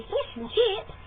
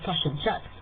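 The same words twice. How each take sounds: First: Much higher Australian "fish and chips", long ee vowel; mock Australian, squeaky high; Australian accent. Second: New Zealand "tosh and chips", short flat vowels; Kiwi accent. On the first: Contrasting neighbours' speech, high Australian accent. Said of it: "where they would say". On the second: Shown as a demonstration. Teaching viewers the Kiwi way, Kiwi accent. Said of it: "We also say".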